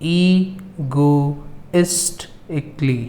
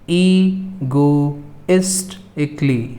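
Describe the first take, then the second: Both takes have the same delivery.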